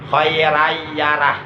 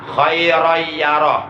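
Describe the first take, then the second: First: The r sounds take light, a-like vowels. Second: The r sounds take heavy, o-like vowels. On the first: The speaker calls it wrong. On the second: The speaker calls it right.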